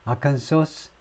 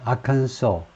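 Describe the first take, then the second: First: The word ends with an audible s sound. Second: The word ends on a vowel, no s. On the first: The speaker calls it wrong. "아칸소스 이렇게 발음하는 사람이 많다" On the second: The speaker calls it right. "S 발음이 없이 아칸소"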